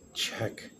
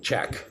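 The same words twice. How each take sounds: First: The word is said in a weak, hesitant tone. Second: The word is said in a normal, steady tone. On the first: "I might convey weakness like check" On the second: "every other time, I'm like check"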